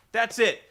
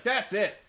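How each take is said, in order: First: Second "That's it." pushed up louder and higher; fed up, louder. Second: Fed up. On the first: Announcer snapping at Jeff Jarrett, louder repeat. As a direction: repeat "That's it." with rising anger. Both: Retold or imitated. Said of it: "has had enough".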